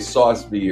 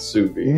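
First: The first word sounds like 'sauce'. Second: The first word sounds like 'soo'. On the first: The speaker calls it wrong. "you want to say sauce vide or something" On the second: The speaker calls it right. "but it's sous vide"

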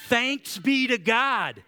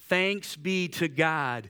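First: It is read loudly with strong energy. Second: It is read in a plain, calm voice. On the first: "with more patience or more passion?" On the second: "Would you read that with me out loud?"

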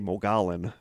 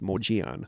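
First: The name is sounded letter by letter, with L. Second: The name is not sounded with an L there. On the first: The speaker calls it wrong. "because it's M-O-G-O-L-L-O-N, so I always want to say Mogollon" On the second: The speaker calls it right. "but it's Mogollon"

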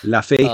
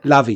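First: The middle consonant is an f sound. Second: The middle consonant is a v sound. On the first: The speaker calls it right. "it's Luffy" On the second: The speaker calls it wrong. "I got sucked in by all the British accents in this episode"

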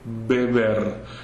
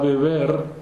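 First: The first b is a hard stop. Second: The first b is soft and light. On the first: The word is said on its own. "if I pronounce the isolated word, I would say beber" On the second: A vowel comes right before the word. "then is again soft because a vowel precedes the word"

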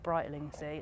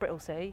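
First: The name is said in full, all syllables. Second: The name is said quickly, squeezed together. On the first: This is how outsiders read the name. The speaker calls it wrong. "It's not Brightlingsea" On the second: This is how people living in the area say it. The speaker calls it right. "say it really quickly"

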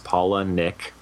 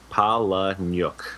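First: The last syllable sounds like 'nick'. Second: The last syllable sounds like 'nyuk'. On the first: This is how the family says it. "the pronunciation is Paula Nick" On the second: This is the original old-country form. "The old world pronunciation is Paula Nyuk"

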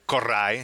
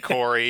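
First: The name is said with a Spanish-style pronunciation. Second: The name is said with a plain English pronunciation. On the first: "She gives it the South American Sofia Vergara flair" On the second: "people say Corey"

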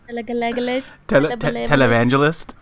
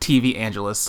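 First: The word begins with the syllables 'tele'. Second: The word begins with the letters 'TV'. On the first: The speaker calls it right. "the right way to say it is televangelist" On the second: The speaker calls it wrong. "I say TV angelists because I can't say that word"

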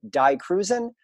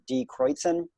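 First: The name is said with an English-style pronunciation. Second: The name is said with a German-style pronunciation. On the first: "I always pronounced it like this when I first got into them" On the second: "purists would pronounce it"

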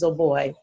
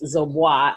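First: The name does not end like Dubois. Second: The name ends like the name Dubois. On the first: The name is Liberian. The speaker calls it right. "it's pronounced Zoboi" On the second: The name is taken to be Haitian. The speaker calls it wrong. "A lot of people think that it's Zoboi, as in Dubois"

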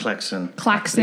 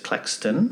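First: The name is said without a T sound. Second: The name is said with a T sound. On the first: The speaker calls it right. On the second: The speaker calls it wrong.

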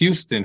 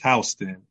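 First: The first syllable sounds like 'hue'. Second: The first syllable sounds like 'house'. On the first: This is how people unfamiliar with the place say it. The speaker calls it wrong. "A lot of people mispronounce it as Houston" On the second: This is how the local place name is said. The speaker calls it right. "but it's Houston"

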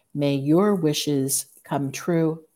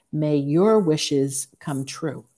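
The two takes are said the same way.

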